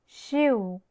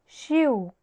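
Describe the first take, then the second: Both takes have the same delivery.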